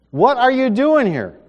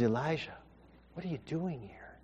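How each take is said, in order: First: Higher, louder demanding question; loud rebuke. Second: Soft, breathy whisper, God speaking close; gentle whisper. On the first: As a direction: demand it like thunder. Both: Acted. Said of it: "in a gentle whisper".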